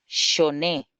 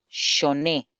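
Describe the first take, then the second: First: "shoné" said clearly as sho-NÉ, stress on the last syllable; teacher models the word "shoné" for students; model pronunciation. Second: "shoné" repeated as sho-NÉ, stress on the final É; teacher confirms how "shoné" is said; model pronunciation. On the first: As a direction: read "shoné" out for the class, final syllable stressed. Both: Shown as a demonstration. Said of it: "Así se dice".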